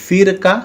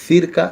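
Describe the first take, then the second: No difference in how they are said.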